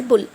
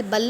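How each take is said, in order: First: बुल with a short "oo"; short rounded vowel in बुल; correct reading of bull. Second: बल with a short "uh"; wrong reading of bull. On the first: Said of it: "ऊ की तरह हुआ". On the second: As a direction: say बल with the vowel of "cup". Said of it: "बल नहीं". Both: Shown as a demonstration.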